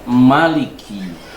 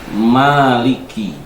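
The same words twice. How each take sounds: First: The vowel after the m is short. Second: The vowel after the m is long. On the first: "dibaca dengan Maliki mim pendek" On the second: "Maliki mim dibaca panjang"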